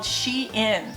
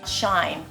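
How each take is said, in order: First: The name does not rhyme with 'Stein'. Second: The name rhymes with 'Stein'. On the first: The speaker calls it right. "It's called Shein" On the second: The speaker calls it wrong. "I would pronounce that Shine like Stein with an H instead of a T"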